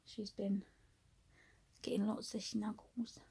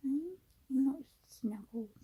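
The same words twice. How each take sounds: First: Soft unvoiced whisper. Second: Put-on higher, slow cooing baby voice to the cat; cooing pet talk. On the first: Real, not acted. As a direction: whisper so the cat stays asleep. Whispering beside sleeping cat.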